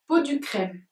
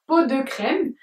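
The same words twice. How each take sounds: First: "Peau du crème" read with "du" as on the label; "du" said clearly in "Peau du crème"; misspelled name. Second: "peau de crème" read with the proper "de"; "de" said clearly in "peau de crème"; corrected name. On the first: Reading out the typo on the palette "Peau du crème". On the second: Correcting the palette typo to "peau de crème". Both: Shown as a demonstration. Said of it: "il voulait dire peau de crème".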